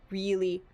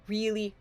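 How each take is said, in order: Both takes have the same delivery.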